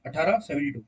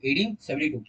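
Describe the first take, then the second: First: अठारह in Hindi, seventy two in English. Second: Said in the usual way. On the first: Shown as a demonstration. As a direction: open with अठारह, not eighteen. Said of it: "अठारह बोलो ना". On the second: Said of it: "अब नहीं बोलोगे ... eighteen seventy two".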